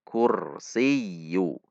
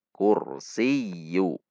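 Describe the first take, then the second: No difference in how they are said.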